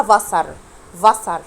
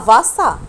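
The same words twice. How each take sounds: First: "فاسر" with the r heard at the end; sounded final R. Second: "فاسا" ending on an open a; silent final R. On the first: Teacher showing how school might say it, sounded final R. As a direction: say "فاسر" ending on a clear r. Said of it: "ممكن تسمعها ازاي في المدرسة". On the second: Teacher showing German final R is not pronounced, silent final R. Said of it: "حرف الار في الاخر لما بيجي مش بنطقه". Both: Shown as a demonstration.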